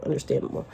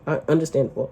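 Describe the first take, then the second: First: Understandable breathed out without voice; a soft whispered aside to herself. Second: Said in the usual way. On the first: Real, not acted. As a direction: drop to a whisper on the repeat. Whispered repeat of concession.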